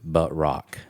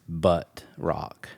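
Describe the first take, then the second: First: The phrase is said plainly, without extra weight. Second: The phrase is said with heavy, punchy emphasis. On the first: The speaker calls it wrong. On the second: The speaker calls it right.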